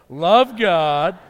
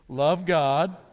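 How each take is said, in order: First: It is said loudly with strong conviction. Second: It is said in a plain, calm voice. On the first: "this time let's do it like it's our mission statement" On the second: "you can say it with me"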